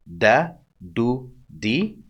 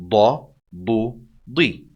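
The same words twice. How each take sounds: First: Light, non-emphatic d in "Da, du, di"; light dal. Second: Heavy, dark d in "Da, du, di"; emphatic dad. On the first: Teacher contrasts dal with dad, light d sound. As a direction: say "Da, du, di" with a plain front d. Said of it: "see the difference". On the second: Teacher contrasts dad with dal, heavy emphatic d. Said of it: "More emphatic". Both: Shown as a demonstration.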